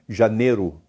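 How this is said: The i sound is dropped, Mineiro style.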